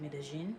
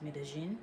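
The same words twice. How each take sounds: First: The double L sounds like a soft zh. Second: The same.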